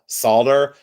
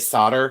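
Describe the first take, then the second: First: It is said the British way. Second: It is said the American way.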